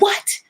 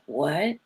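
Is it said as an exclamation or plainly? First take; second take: exclamation; plainly. First: It is said as a lively exclamation. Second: It is said plainly, without exclamation.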